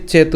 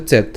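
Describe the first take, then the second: First: চেত shown the way learners should not say it; pronunciation to avoid. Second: চেত ending on a bare t, no vowel after it; hasanta final t. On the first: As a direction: model the mistaken চেত, without the cut-off final t. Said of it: "চেত উচ্চারণ না করে". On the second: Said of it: "হসন্ত হবে". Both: Shown as a demonstration.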